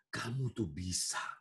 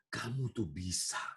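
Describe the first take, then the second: First: It is said in a soft, warm, persuasive voice. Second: It is said in a soft, warm, persuasive voice.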